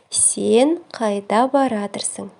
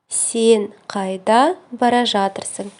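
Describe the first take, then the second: First: The verb is shortened to one word: baratyrsyn. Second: The verb is said in full: bara zhatyrsyn.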